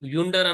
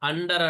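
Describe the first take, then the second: First: The word begins with a 'yu' sound. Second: The word begins with an 'uh' sound. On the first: The speaker calls it wrong. "యుండర్ అనకుండా" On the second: The speaker calls it right. "అండర్ అంటున్నాము"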